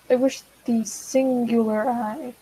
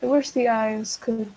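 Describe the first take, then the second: First: "singular" drawn out slowly and emphasized; slow down and lean on "singular"; self-correcting stress. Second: Said in the usual way. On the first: Real, not acted.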